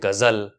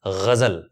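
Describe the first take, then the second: First: Not both consonants are soft fricatives. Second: Both consonants are soft fricatives, gh and z. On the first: The speaker calls it wrong. "ये सारे ही जो उच्चारण है वो गलत है" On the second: The speaker calls it right. "सही उच्चारण है ग़ज़ल"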